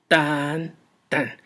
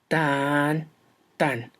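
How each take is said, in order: First: The first beat is long and stressed. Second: The same.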